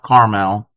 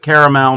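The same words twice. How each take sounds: First: The word is said with two syllables. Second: The word is said with three syllables. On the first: The speaker calls it wrong. "not caramel. Carmel is a town" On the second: The speaker calls it right. "I pronounce it caramel"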